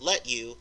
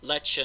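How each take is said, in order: First: The t and y are said separately. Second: The t and y merge into a ch sound.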